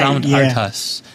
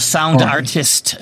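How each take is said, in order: First: The name ends with an 'us' sound. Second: The name ends with an 'ist' sound. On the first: The speaker calls it right. "right, Sound Artus" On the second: The speaker calls it wrong. "Some people go Sound Artist, but no"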